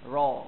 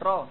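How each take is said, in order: First: The ra sound is heavy and thick. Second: The ra sound is light and thin. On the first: The speaker calls it right. "tapi ra. Ra, tebal ra" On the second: The speaker calls it wrong. "bukan macam ra ra di atas, betul-betul di atas lidah"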